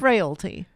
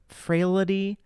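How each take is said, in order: First: The word is said with two syllables. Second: The word is said with an extra syllable. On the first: The speaker calls it right. "it's frailty" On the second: The speaker calls it wrong. "People to put too many L's"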